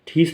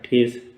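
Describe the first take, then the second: First: The vowel is a long 'ee' sound. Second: The vowel is a long 'ay' sound. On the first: The speaker calls it wrong. "ठीस नहीं पढ़ेंगे इसको" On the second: The speaker calls it right. "तो ये हो गया ठेस"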